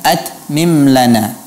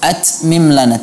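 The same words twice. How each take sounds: First: The t sound has a clean release without hissing. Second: The t sound has a hissing, whistling release. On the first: The speaker calls it right. "Tapi ucapkan at mim lana" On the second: The speaker calls it wrong. "huruf ta tidak memiliki safir, ya, seperti suara gitu. At mim lana, tidak"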